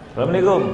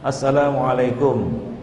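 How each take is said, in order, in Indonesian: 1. Ucapan salamnya cadel dan terpotong. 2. Ucapan salamnya diucapkan lengkap dan jelas. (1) "ini enggak ada artinya" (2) "ucapkanlah dengan fasih"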